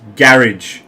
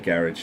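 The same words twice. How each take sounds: First: Garage is said with a British pronunciation. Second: Garage is said with an American pronunciation. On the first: The speaker calls it right. "say it like this" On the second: The speaker calls it wrong. "I'm sorry if you are American, but when you say garage"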